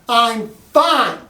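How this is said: It sounds irritated, like she wants space.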